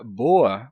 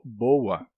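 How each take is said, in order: First: Said in the usual way. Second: "boa" said with a U glide, BO-ua; inserted U glide. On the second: Shown as a demonstration. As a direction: slip a W between the O and A of "boa". ("boa" com um U no meio, bôua) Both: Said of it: "você tá colocando um U aí".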